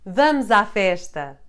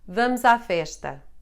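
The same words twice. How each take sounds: First: It is said as an exclamation. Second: It is said as a plain statement.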